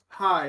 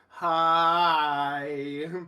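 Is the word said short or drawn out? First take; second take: short; drawn out. First: The word is said short and normal. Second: The word is stretched out long, drunkenly.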